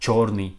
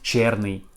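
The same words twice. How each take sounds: First: The stressed vowel sounds like yo. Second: The stressed vowel sounds like ye. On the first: The speaker calls it right. "we pronounce like yo" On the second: The speaker calls it wrong. "not черный"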